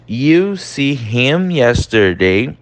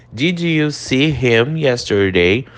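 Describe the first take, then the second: First: Slow "You see him yesterday" as the wrong way; teacher showing the wrong translation; wrong word-for-word. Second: Slow, clear "Did you"; teacher showing the correct form. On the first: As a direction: model the literal mistake. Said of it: "a gente não fala direto". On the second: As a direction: model the right question with "Did". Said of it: "A gente usa o did". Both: Shown as a demonstration.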